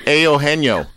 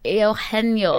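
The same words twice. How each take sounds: First: "Eugenio" as AY-oh-HEN-yo, the first syllable wrong; mangled Eugenio. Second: "Eugenio" with a Spanish h sound, eh-oh-HEN-yo; pronouncing Eugenio. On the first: Host attempting the guest's name, the start wrong. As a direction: try "Eugenio" and miss the opening sound. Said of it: "Okay, my turn". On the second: Co-host trying the guest's name, careful Spanish pronunciation. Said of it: "say it one more time". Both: Shown as a demonstration.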